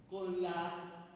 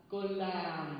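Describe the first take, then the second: No difference in how they are said.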